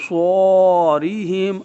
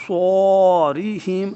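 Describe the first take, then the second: First: صوریہم drawn out very slowly and loud; slow recitation. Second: صوریہم stretched very slowly, chanted loud; a chanted Quranic صوریہم, slowly; slow recitation again. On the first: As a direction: recite صوریہم stretched, syllable by syllable. (صوریہم کو بہت آہستہ کھینچ کر پڑھیں) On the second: (صوریہم کو آہستہ تجوید سے پڑھیں) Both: Shown as a demonstration. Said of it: "یعنی اس طرح کر کے پڑھیں گے".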